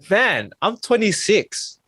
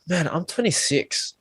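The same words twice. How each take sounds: First: It is said with energy and excitement. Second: It is said flatly, without energy. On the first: Getting older feels like something to appreciate. The speaker calls it right. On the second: Getting older feels like a burden. The speaker calls it wrong.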